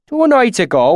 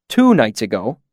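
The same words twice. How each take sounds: First: High, loud country-dialect storyteller; rustic swineherd. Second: Said in the usual way. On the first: A narrator's reading. Swineherd starting his account of strange lights, rustic and loud. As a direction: launch into a tale in broad bumpkin dialect. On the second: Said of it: "I asked".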